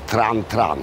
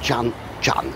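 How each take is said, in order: First: The name begins with a 'tr' sound. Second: The name begins with a 'ch' sound. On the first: "powiedzielibyśmy po polsku" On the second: "to się wymawia jako"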